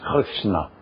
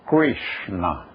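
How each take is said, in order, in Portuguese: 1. O R é pronunciado com sotaque francês. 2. O R é pronunciado com sotaque inglês. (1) "Mas como seria na França?" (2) "Como se pronunciaria isto num país de língua inglesa?"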